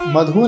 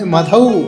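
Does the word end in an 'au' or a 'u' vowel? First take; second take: u; au. First: The word ends in a short 'u' vowel. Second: The word ends in an 'au' vowel. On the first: The speaker calls it wrong. "मधु नहीं दो मात्रा है" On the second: The speaker calls it right. "बोलना है मधु"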